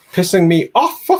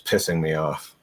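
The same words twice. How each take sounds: First: High, loud hammed-up complaint; mock exasperation. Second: Said in the usual way. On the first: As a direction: blow up in mock frustration at the browser. Mock rant at Google Chrome.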